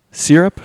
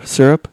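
First: "Syrup" said SEER-up, questioning. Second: "Syrup" said SUR-up, questioning. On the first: Breakfast judge tests how to say it, "Syrup" as SEER-up. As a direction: say "Syrup" with a SEER first syllable. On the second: Breakfast judge tests how to say it, "Syrup" as SUR-up. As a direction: say "Syrup" with a SUR first syllable. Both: Shown as a demonstration. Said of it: "Syrup or syrup?".

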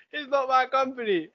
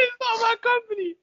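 First: Said in the usual way. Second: High squeaky protesting voice. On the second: Acted.

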